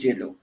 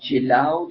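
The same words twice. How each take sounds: First: The word ends in a plain o vowel. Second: The word ends in the diphthong ow. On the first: This is the form used today. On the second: This is the older form of the word.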